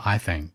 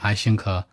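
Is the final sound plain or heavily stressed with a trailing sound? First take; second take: plain; heavily stressed. First: The phrase ends plainly without extra final stress. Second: The final sound is stressed with a trailing sound.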